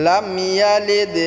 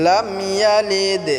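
Both takes have the same delivery.

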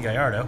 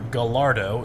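First: The word is said without an Ohio pronunciation. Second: The word is said with an Ohio pronunciation.

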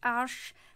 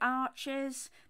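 First: It is said with one syllable, ending in 'sh'. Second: It is said with two syllables, like English 'arches'. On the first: The speaker calls it right. "it's actually French, so it's Arsh" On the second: The speaker calls it wrong. "Some people pronounce it Arches"

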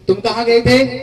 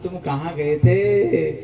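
First: It sounds like a reproachful, accusing question. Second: It sounds knowing, as if already aware.

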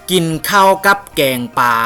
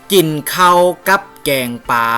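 No difference in how they are said.

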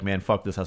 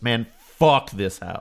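First: The title is read plainly, without any flourish. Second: The title is read with an exaggerated, affected delivery. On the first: The speaker calls it wrong. "I can't just read it like" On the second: The speaker calls it right. "I always have to read it that way"

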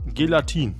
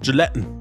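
First: The word is pronounced with a German pronunciation. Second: The word is pronounced with an English pronunciation.

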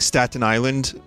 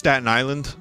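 First: It is said the way outsiders say it. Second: It is said the way locals say it. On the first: The speaker is not from the island. "when you're not from here it's like Staten Island" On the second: The speaker is a real Staten Islander. "we say just Staten Island"

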